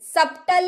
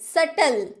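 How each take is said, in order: First: A p-like sound is heard before the t. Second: The vowel runs straight into the t. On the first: The speaker calls it wrong. "सप्टल नहीं" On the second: The speaker calls it right.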